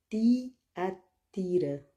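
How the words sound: It is said with an Italian accent.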